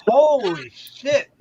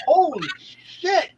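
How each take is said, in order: First: Slow, drawn-out holy shit; shocked holy shit. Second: Slow, high drawn-out holy shit; shocked drawl. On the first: On the train beside a naked woman, slow stunned holy shit. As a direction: drag it out in shock. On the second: Telling friends about street sex, slow shocked holy shit. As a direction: stretch it out in mock disbelief. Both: Retold or imitated.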